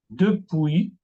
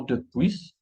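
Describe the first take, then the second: First: "Depuis" ending on an open "pwee"; silent final S. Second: "depuis" closed with an audible S; sounded final S. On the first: French teacher models the right form, "Depuis" with silent S. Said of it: "no se pronuncian la S". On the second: Teacher shows learners the mistake, "depuis" with final S sounded. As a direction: say "depuis" as duh-PWEESS. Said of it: "y no depuis". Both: Shown as a demonstration.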